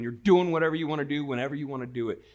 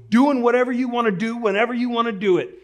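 First: Said in the usual way. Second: High, loud booming sergeant bellow; drill sergeant shout. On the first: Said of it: "that meant, like". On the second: Retold or imitated. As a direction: boom it out like a drill sergeant barging in. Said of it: "to say in a loud voice".

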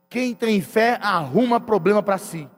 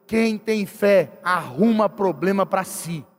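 First: Said in the usual way. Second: Each word slow and weighted, "quem" stressed, falling at the end; preacher lays down "quem tem fé" slowly to the church, slow and heavy; slow emphatic statement. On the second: Shown as a demonstration. Pastor teaching his congregation a maxim, slow emphatic. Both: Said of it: "e aprenda uma coisa".

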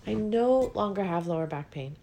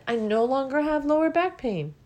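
First: Said in the usual way. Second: Higher, bright announcement; triumphant news. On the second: Real, not acted. Speaker sharing her healed back, triumphant. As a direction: proclaim the good news. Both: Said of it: "And guess what?".

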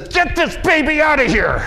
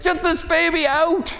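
First: High, loud desperate cry; mother in labour. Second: High, strained mock scream; Mary screaming in labour. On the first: Retold or imitated. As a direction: shout it like a woman giving birth. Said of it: "a young lady who says". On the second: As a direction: cry it out like a woman in labour, higher. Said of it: "she actually screams out something like".

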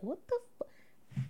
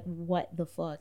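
First: Imitating a stunned, whispered reaction; slow, voiceless gasp of disbelief, cut off. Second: Retold stunned reaction, slow and low-key. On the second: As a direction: draw it out softly in mild disbelief.

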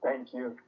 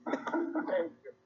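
First: Said in the usual way. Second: High laughing thank you. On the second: Real, not acted. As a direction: say it through real laughter.

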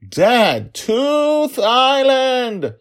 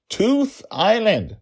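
First: Very high, drawn-out yell; child's scream. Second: High, slow, loud correction; insistent child. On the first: Daughter screaming at her forgetful dad, exasperated. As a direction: scream it at the top, stretching the words. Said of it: "she screamed at him". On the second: Daughter correcting her dad, slow exasperated insistence. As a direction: spell it out loudly for a dense dad. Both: Acted.

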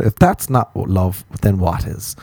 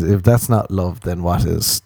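First: "If that's not love" slowed right down for emphasis; emphatic repeat. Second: Said in the usual way. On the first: Shown as a demonstration. Asking the dear listener, slow emphatic "If that's not love". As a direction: draw out "that's not love", then drop on "then what is".

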